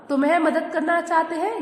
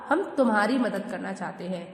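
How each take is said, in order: First: Teacher highlighting the wrong word for the class; stress on तुम्हें. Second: Said in the usual way. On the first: Shown as a demonstration. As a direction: mark तुम्हें as the mistake. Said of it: "ये गलत हो गया।". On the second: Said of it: "क्या होता?".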